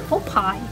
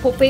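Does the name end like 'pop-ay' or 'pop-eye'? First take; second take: pop-eye; pop-ay. First: The name ends with an 'eye' sound. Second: The name ends with an 'ay' sound. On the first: The speaker calls it right. "это не Попей, это Попай" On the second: The speaker calls it wrong. "Я говорю Попей"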